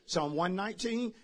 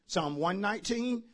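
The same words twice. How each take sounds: The two takes are said the same way.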